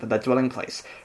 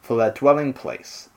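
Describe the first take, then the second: First: It is read at a normal, even pace. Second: It is read slowly with drawn-out pauses. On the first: "I'll do it my old way" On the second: "I'm just trying to be like slower"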